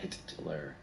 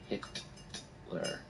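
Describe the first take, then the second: First: The name is said at an ordinary speed. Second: The name is said slowly, the T drawn out. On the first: "I'll say it in normal speed now" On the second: "I just didn't slow it down for you"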